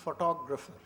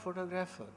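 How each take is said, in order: First: Photographer said pho-TO-gra-pher, stress on the second syllable; the librarian correcting the lecturer's photographer; corrected pronunciation. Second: Photographer said PHO-to-gra-pher, stress on the first syllable; the librarian repeating the lecturer's wrong stress on photographer; mispronounced word. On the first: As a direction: give the proper form of photographer, firmly. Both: Retold or imitated. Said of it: "she said".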